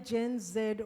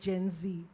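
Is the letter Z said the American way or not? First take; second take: non-American; American. First: The letter Z is said the non-American way. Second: The letter Z is said the American way.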